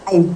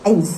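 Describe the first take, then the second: First: The words are squeezed into one short syllable. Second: The same.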